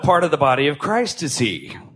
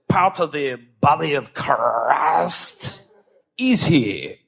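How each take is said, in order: First: It is spoken in the speaker's ordinary accent. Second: It is spoken in a put-on French accent.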